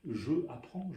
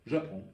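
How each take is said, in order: First: The vowel of je is fully pronounced. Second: The vowel of je is dropped. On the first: The speaker calls it wrong. "Nous ne disons pas je apprends" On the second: The speaker calls it right. "on enlève une voyelle"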